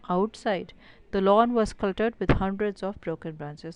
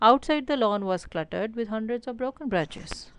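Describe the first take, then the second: First: There is a pause after "outside". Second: There is no pause after "outside".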